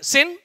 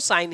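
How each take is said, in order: First: The vowel is short, as in 'sin'. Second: The vowel is a long 'ai', as in 'sign'. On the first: The speaker calls it wrong. "sin नहीं" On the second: The speaker calls it right. "इसको साइन ही पढ़ना है"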